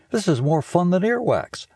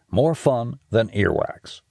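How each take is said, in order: First: Put-on a higher, eager boy's voice; excited kid Stink. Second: Slow tagline. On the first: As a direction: gush like a thrilled kid. Stink answers Missus D. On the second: Segment tagline read slowly. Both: A narrator's reading.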